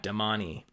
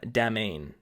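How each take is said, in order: First: The final vowel of the name is sounded. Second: The final vowel of the name is silent. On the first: The speaker calls it right. "an E at the end that ... you're supposed to pronounce" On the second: The speaker calls it wrong. "I was calling them Damane"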